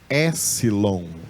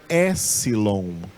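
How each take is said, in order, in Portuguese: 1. O som de p é omitido. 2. O som de p é omitido.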